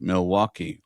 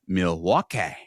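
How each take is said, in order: First: Said in the usual way. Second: Milwaukee ending in a drawn-out "kay"; Wayne's World pronunciation. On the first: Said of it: "or as explained and pronounced". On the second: Shown as a demonstration. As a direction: say Milwaukee as "mil-wah-KAY". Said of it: "as explained and pronounced".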